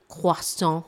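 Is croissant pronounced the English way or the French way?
French. The word is said with a French pronunciation. It is treated as a foreign French word. "that is the correct French pronunciation"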